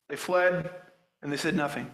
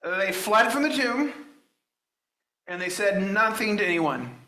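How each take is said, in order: First: Softer echo that lets the words sink; a quiet, weighty restatement; hushed repeat. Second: Said in the usual way. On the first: Shown as a demonstration. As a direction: drop the voice and let it land. Preacher repeats verse, hushed.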